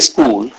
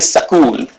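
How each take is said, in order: First: The s runs straight into the k sound. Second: An extra vowel separates the s from k. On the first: "they don't say school" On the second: "they say sakul"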